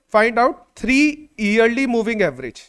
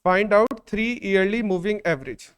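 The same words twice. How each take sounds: First: Very slow, word by word, for writing down; slow dictation to the class. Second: Repeating the dictation gently; slow dictation. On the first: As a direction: spell it out slowly so they can copy. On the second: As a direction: repeat it slowly for copying. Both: Shown as a demonstration. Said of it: "मैं question लिखवा देता हूं".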